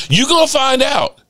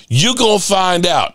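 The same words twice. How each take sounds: First: Emphatic warning. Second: Said in the usual way. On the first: Shown as a demonstration. Fan warning Eagles fans, "You gonna find out" pitched up. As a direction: warn them, pitched up.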